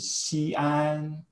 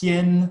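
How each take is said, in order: First: The word is said as two syllables. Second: The word is said as one syllable. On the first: "spread across two" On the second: "when these four sounds are together in one syllable"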